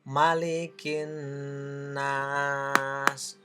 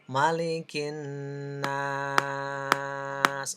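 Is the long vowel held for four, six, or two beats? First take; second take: two beats; four beats. First: The long vowel is held for two beats. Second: The long vowel is held for four beats. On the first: "bisa dua ketukan" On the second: "empat ketukan"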